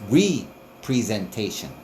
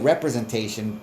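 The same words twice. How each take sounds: First: The word is said carefully with every syllable. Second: The word is said quickly with syllables dropped. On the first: The speaker calls it right. "It's representation" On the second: The speaker calls it wrong. "you're not gonna take your time to fucking pronounce it the way it's actually fucking spelled"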